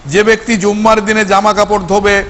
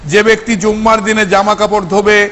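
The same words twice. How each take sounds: Both takes have the same delivery.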